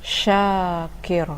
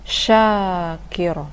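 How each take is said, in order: The two takes are said the same way.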